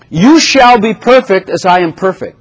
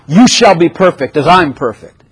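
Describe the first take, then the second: First: It is said as a reassuring promise. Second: It is said as a stern command. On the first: This is assured to happen. The speaker calls it right. "That's actually a promise" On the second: This is an order that must be obeyed. The speaker calls it wrong. "It's not a law"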